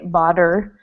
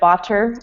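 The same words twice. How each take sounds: First: The middle consonant sounds like a D. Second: The middle consonant is a clear T sound. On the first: "it's like a D sound" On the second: "Instead of botter"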